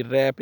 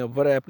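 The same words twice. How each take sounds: First: "रैप" starting straight on the R; silent W. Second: "वरैप" with an audible V/W before the R; sounded W. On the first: Teacher showing learners the correct word, "रैप" with silent W. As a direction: say "रैप" with no W sound. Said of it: "रैप इसको बोलते हैं". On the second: Teacher showing learners the mistake, "वरैप" with W sounded. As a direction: wrongly voice the silent W in "वरैप". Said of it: "वरैप नहीं बोलते". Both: Shown as a demonstration.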